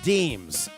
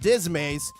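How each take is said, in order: First: The word is said as one syllable, deems. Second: The word is said as two syllables, dis-mays. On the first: The speaker calls it right. "You pronounce this as deems" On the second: The speaker calls it wrong. "It's not dismays"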